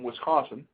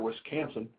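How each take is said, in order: First: It is said in a plain, ordinary accent. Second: It is said in a local Wisconsin accent.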